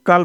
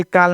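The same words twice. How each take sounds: First: कल with a short uh vowel; correct pronunciation. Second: काल with a long open aa; wrong pronunciation. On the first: Teacher corrects the misreading for learners, correct short-vowel कल. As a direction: keep कल short, with uh. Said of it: "कल पढ़ेंगे". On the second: Teacher warns learners off a misreading, wrong long-aa काल. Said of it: "काल नहीं पढ़ेंगे". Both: Shown as a demonstration.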